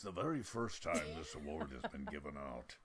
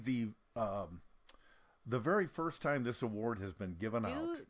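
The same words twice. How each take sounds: First: It is said in a put-on, imitated voice. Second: It is said in the speaker's natural voice. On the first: The caller's words are being acted out. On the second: The speaker is retelling the call.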